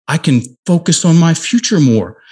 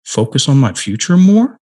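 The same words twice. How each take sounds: First: Higher on "future", falling on "more"; firm statement with a final fall on "more". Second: Higher, pitch climbing on "more"; unsure, questioning rise up to "more". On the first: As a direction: declare it, dropping the tune at "more". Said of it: "Now say it like a statement". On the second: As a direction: turn it into a question, lifting "more". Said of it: "he said it like a question". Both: Retold or imitated.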